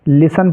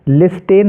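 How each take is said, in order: First: The word is said without a t sound. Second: The word is said with a clear t sound. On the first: The speaker calls it right. "लिसन पढ़ेंगे" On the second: The speaker calls it wrong. "लिस्टेन नहीं पढ़ना है"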